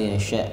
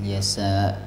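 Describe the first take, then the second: First: The middle consonant is a 'sh' sound. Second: The middle consonant is an 's' sound. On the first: The speaker calls it right. "shin ya" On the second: The speaker calls it wrong. "bukan yasa"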